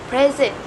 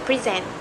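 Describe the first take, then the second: First: "present" with the first syllable punched higher and louder; stress on first syllable. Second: "present" with the weight on the last syllable; stress on second syllable. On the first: Student presenter showing the noun for a gift, stress on first syllable of "present". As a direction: say "present" as the noun, PRE-sent. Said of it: "are stressed more than others". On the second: Student presenter contrasting the verb to give a talk, stress on second syllable of "present". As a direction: say "present" as the verb, pre-SENT. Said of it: "depending on which part we stress".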